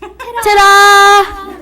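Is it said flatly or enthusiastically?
enthusiastically. It is said with more enthusiasm.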